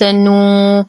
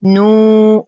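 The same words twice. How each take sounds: First: Long "uu" of نو hummed through the nose; nasalised waw. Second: Pure oral long "uu" in نو; waw free of nasality. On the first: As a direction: let the n's nasality leak into نو. (نطق نو بواو مخلوطة بالغنة) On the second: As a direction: keep the vowel of نو out of the nose. (نطق نو بواو خالصة من الغنة) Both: Shown as a demonstration. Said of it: "نحاول تخليص الواو من غنة النون".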